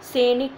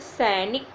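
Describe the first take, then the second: First: The first vowel is a plain 'e'. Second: The first vowel is the diphthong 'ai'. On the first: The speaker calls it wrong. "सैनिक नहीं होता है" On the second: The speaker calls it right. "क्या होता है, सैनिक"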